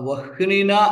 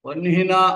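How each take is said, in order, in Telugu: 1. h శబ్దం n కంటే ముందు వస్తుంది. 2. h శబ్దం n కంటే తర్వాత వస్తుంది. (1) "హకారం కింద నకారం రాసేం కదా అని వహ్నినా అంటూ ఉంటారు. ఆ వహ్నినా అనకూడదు" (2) "వహ్నినా అనే అనాలి"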